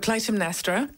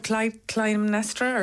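First: The t sound is pronounced in the name. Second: The t sound is left out of the name.

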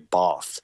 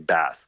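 First: It is said in a southern English accent. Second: It is said in a northern English accent. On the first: "in the South, you know, of England, received pronunciation, people might say bath" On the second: "whereas in the North they might say bath"

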